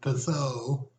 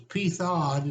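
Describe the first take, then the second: First: The name is pronounced the French way. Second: The name is pronounced the American way. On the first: "She always thought in French it was" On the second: "is an American pronunciation"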